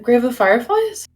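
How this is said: It is said as a question.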